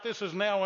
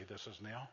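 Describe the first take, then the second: First: "this is now" said louder with a firm push on "now"; loud emphatic. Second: Mumbled, much softer, flat "This is now"; flat deadpan. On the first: Shown as a demonstration. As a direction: punch out "this is now" for the crowd. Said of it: "Scratch out". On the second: Retold or imitated. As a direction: drop "This is now" low and lifeless. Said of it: "he didn't say".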